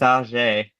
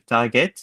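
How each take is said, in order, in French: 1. Il se prononce à la française. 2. Il se prononce tout simplement à l'anglaise.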